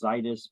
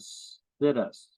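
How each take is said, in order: First: The first syllable does not sound like 'sit'. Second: The first syllable sounds like the word 'sit'. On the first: The speaker calls it right. "I know it's pronounced situs" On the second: The speaker calls it wrong. "I'm going to mispronounce it ... we're going to sit us right here"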